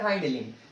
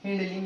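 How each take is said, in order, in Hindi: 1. 'hind' में स्वर 'eye' जैसा लंबा है। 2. 'hind' में स्वर 'i' छोटा है। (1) "दोनों भी उसका प्रोनाउंसिएशन है" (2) "दोनों भी उसका प्रोनाउंसिएशन है"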